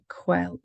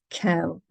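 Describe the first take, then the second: First: The word begins with a kw sound. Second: The word begins with a plain k sound. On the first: The speaker calls it wrong. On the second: The speaker calls it right.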